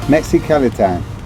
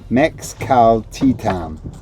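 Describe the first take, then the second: First: The name is said at normal speed. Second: The name is said slowly and carefully.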